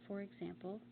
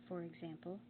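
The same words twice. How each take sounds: Both takes have the same delivery.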